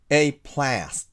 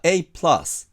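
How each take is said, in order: First: The vowel in plus sounds like the one in cat. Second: The vowel in plus sounds like the one in cup. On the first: The speaker calls it wrong. "本当はa なのにair と発音しちゃったり" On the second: The speaker calls it right. "本当はA プラス"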